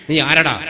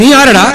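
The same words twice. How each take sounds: First: Said in the usual way. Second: Louder, higher നീ ആരടാ? thrown hard; loud challenge. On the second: Retold or imitated. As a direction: bark നീ ആരടാ? at the stranger. Quarrel, who are you. (നീ ആരടാ? ഉറക്കെ വെല്ലുവിളിയോടെ)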